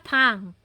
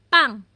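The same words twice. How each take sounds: First: The first consonant is soft and lax. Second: The first consonant is strong and tense. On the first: The speaker calls it wrong. "Hindi siya pang" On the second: The speaker calls it right. "very uh, strong sounds po siya pag double consonant"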